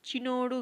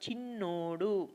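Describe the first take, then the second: First: The n sound is short, not doubled. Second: The n sound is held long, doubled. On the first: The speaker calls it wrong. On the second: The speaker calls it right.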